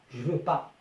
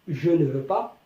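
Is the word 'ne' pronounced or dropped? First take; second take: dropped; pronounced. First: The word ne is dropped entirely. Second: The word ne is pronounced in full. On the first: This is the everyday spoken form. "mais à l'oral je dis je veux pas" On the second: This is the written form. "On écrit je ne veux pas"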